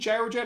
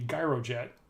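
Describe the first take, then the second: First: It begins with a soft 'j' sound. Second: It begins with a hard 'g' sound. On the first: "with a soft G" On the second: "a hard G"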